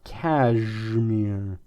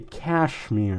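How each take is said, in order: First: The middle consonant is a g sound. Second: The middle consonant is an sh sound. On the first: This is how the name is actually said. "It has a G sound where there's an S H" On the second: This is how the spelling suggests it is said. "that spelling makes it look like it's supposed to say cashmere"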